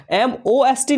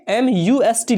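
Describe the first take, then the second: First: Spelt out as एम ओ एस टी; letters एम ओ एस टी named one by one; wrong spelling. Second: Spelt out as एम यू एस टी; letters एम यू एस टी named one by one; right spelling. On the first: Teacher to students, spelling out the wrong form. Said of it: "नहीं लिखना है". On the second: Teacher to students, spelling out the right form. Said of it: "जब भी लिखिए". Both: Shown as a demonstration.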